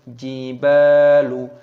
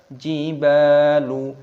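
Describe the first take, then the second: Both takes have the same delivery.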